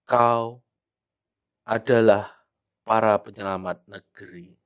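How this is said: There is a pause after the first word. The speaker calls it right. "Ada jeda ketika kita membaca kau, kita harus berhenti agak lama"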